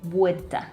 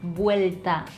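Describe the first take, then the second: First: A D sound replaces the L before the T. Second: An L sound is heard before the T. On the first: "we replace that sound with a D sound" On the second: "instead of vuelta"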